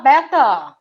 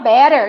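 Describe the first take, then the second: First: The final r sound is dropped. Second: The final r sound is clearly pronounced. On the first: "o britânico fala beta, ainda engole o R" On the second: "O americano fala better, igual nós, mato-grossenses, falamos, porta"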